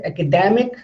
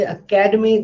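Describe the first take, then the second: First: "academic" stressed on dem; stress on the third syllable. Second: "academy" with the stress on ca; stress on the second syllable. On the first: Teacher contrasting it with academy, "academic" stressed on its third syllable. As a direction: move the weight onto DEM in "academic". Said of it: "da here is stressed". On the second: Teacher contrasting two words, "academy" stressed on its second syllable. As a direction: make the second syllable of "academy" the strong one. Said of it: "then ka is stressed". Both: Shown as a demonstration.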